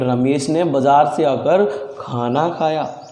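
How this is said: The stress falls on the word खाना. It was food that he ate. "तो खाने पर अगर जोर दूंगा"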